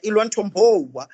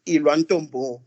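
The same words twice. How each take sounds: First: "Ilwa Ntombo" in a playful imitation of an American accent, higher and louder; hammed-up American accent, quoting Maya Angelou; mock American accent. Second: Said in the usual way. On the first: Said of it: "in that American accent, like". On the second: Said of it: "heard her say it in that American accent".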